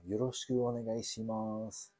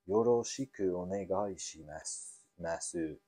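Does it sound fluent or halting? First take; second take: fluent; halting. First: It is said smoothly and fluently. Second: It is said haltingly, not fluently.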